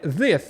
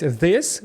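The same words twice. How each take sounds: First: THIS wrongly ending in TH instead of S, "thith"; misplaced TH. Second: THIS said properly, voiced TH at the start and S at the end; correct final S. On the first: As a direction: put a TH at both ends of "this". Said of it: "Ви будете ставити цей звук «th» туди, куди не потрібно". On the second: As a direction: end "this" on a clean S. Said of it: "Наприклад, замість «this»". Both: Shown as a demonstration.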